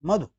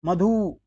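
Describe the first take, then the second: First: मधु as a quick "madhu"; short u. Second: मधु as "madhoo", end drawn out; wrong long oo. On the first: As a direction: cut the last vowel of मधु short. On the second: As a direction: stretch the last vowel of मधु. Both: Shown as a demonstration. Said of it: "मधु नहीं".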